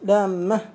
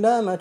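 First: The middle consonant is doubled and held longer. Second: The middle consonant is single and short. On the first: The speaker calls it wrong. "إذا قلت لامة وتامة ينكسر البيت" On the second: The speaker calls it right. "تقرأ بالتخفيف"

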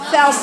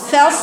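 No difference in how they are said.

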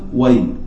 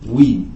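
First: The w is followed by an a vowel. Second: The w is followed by an i vowel. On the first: This is the form used in the Quran. "وي بفتح الواو" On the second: This is the colloquial dialect form. "يقولون وي وي بكسر الواو"

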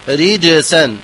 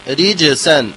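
No difference in how they are said.

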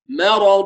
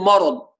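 First: The m stays light before the heavy r. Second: The m is heavy, colored by the following r. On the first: The speaker calls it right. "الذي يخلص المرقق من المفخم" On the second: The speaker calls it wrong. "فلماذا تجعلها في كلمة مرض مرض؟"

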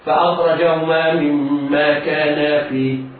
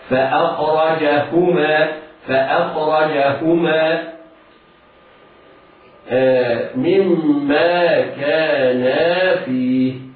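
First: The h sound is faint and barely heard. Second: The h sound is clearly and fully pronounced. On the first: The speaker calls it wrong. "قد يقول هكذا ... لم نسمع هاء" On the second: The speaker calls it right. "على القارئ أن يعتني بنطق الهاء هكذا"

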